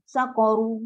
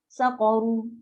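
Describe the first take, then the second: First: The word ends with a u vowel. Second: The same.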